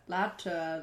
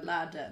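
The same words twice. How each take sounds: First: "ladder" with a hard t, as latter; hardened consonant. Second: Said in the usual way. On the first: Acted. Testing latter against ladder, "ladder" with hard t. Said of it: "Give each consonant its due". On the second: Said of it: "Ladder and latter".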